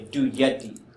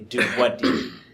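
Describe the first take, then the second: First: The second word begins with a y sound. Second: The second word begins with a w sound. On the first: This is how it is said today. "you say du yeti" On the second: This is how it was said long ago. "a long time ago, you used to say du wadi"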